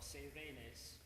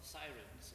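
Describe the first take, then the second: First: The word has a Greek-style pronunciation. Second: The word has its usual English pronunciation.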